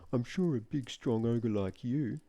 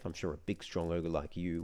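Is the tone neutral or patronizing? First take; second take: patronizing; neutral. First: The line is read in a patronizing tone. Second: The line is read in a neutral tone. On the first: "if I read it in a patronizing tone of voice" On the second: "I did read that line in a neutral tone of voice"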